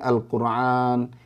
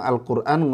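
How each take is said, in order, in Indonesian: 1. Konsonannya bunyi 'ain dari tenggorokan. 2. Konsonannya hamzah yang ringan.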